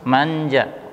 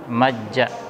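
First: The n is clear with no nasal hum. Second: The n merges into a doubled j. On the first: "jelas. Tidak ada suara dengungnya" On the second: "tidak mungkin orang membaca dengan majja"

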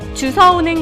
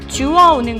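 First: The second syllable starts with an s sound. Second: The second syllable starts with a w sound. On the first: The speaker calls it wrong. "주워오는 것이 아니라" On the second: The speaker calls it right. "표준어는 주서가 아니라 주어입니다"

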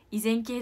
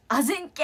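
First: The word begins with i and sounds izenkei. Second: The word begins with a and sounds azenke. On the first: The speaker calls it right. "そしたら先生が依然系ですねみたいな" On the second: The speaker calls it wrong. "まあもういいやと思って勘で、あぜんけって言っちゃって"

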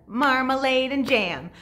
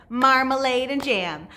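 The two takes are said the same way.

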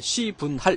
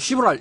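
First: Each syllable is said clearly and distinctly. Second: The syllables are run together casually. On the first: It is heard as the technical term. The speaker calls it right. "분명히 읽어야 돼. 시분할. 이렇게 읽어야 돼요" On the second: It sounds like a swear word. The speaker calls it wrong. "그냥 시분할. 이렇게 읽으면 안 된다"

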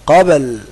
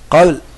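First: The b is held and released with a bounce. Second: The b is barely heard and not released. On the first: The speaker calls it right. "لا" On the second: The speaker calls it wrong. "ما تقولش قابل قابل ما سمعت الباء"

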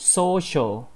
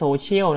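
First: The word is said in an English-style pronunciation. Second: The word is said in a Thai-style pronunciation. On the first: The speaker calls it right. "แต่จริงๆแล้วมันออกเสียงว่า" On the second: The speaker calls it wrong. "จริงๆคำนี้ไม่ได้อ่านว่า"

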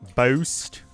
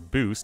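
First: The word is said in a mock Canadian accent. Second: The word is said in a plain accent. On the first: The speaker calls it wrong. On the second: The speaker calls it right.

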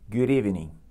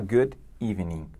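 First: The final D runs straight into the next vowel. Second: The final D is cut off from the next vowel. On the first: The speaker calls it right. "E acontece também nos seguintes exemplos" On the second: The speaker calls it wrong. "Você não vai falar good evening"

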